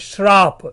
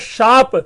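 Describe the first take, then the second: First: The word starts with 'shr', adding an 'r'. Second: The word starts with 'sh' and no 'r'. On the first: The speaker calls it wrong. "शाप में श के बीच में र आ गया" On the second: The speaker calls it right. "इसी तरह है शाप"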